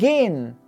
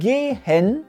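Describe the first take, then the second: First: The e is dropped, ending straight on n. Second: The e in the final syllable is clearly pronounced. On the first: The speaker calls it right. "Sie lassen dann einfach das E weg und sagen gleich das N" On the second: The speaker calls it wrong. "die Deutschen sagen nicht gehen"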